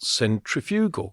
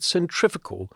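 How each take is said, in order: First: The word is said with a British pronunciation. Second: The word is said with an American pronunciation. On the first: "not centrifugal" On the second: "you said centrifugal, That's the American spelling or pronunciation"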